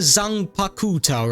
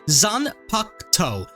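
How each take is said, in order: First: The middle 'u' sound is clearly pronounced. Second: The middle 'u' sound is left silent. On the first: The speaker calls it wrong. "I called it the Zanpakuto" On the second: The speaker calls it right. "the U over here, silent"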